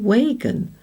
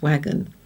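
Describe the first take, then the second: First: The first vowel is a long A sound. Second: The first vowel is a short A sound. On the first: The speaker calls it wrong. "you would think that this word would be wagon, as this one is bacon" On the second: The speaker calls it right. "but it isn't, it's wagon"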